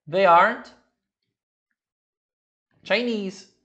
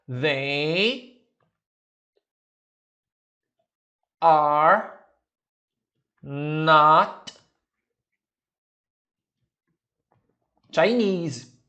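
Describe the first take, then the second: First: Are and not merge into one syllable. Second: Every word is said in full form.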